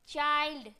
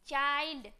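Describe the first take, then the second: No difference in how they are said.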